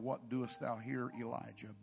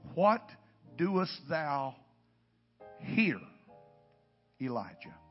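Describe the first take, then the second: First: No word is given special stress. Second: The word here is stressed.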